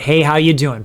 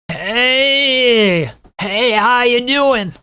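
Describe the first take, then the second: First: It is said in a clear, easy voice. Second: It is said with a tight, held-breath throat.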